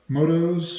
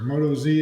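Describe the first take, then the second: First: The name ends with a short 's' sound. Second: The name ends with a separate 'zee' syllable.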